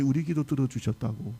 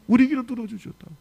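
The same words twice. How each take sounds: First: Said in the usual way. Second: Louder and higher, 우리 stressed with a falling end; emphatic repeat. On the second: Shown as a demonstration. Preacher repeats the husbands' words to the congregation, emphatic. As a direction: ring out 우리 to the congregation. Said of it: "하나님이 우리 기도 들어주셨다고".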